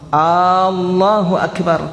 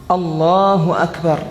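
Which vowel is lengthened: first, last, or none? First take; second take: first; none. First: The first vowel, at the start, is drawn out. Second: No vowel is drawn out beyond normal length. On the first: It turns into a question whether God is great. The speaker calls it wrong. "Dia kasih panjang D P hamzah yang pertama" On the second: God is the greatest. The speaker calls it right. "Tidak merubah makna"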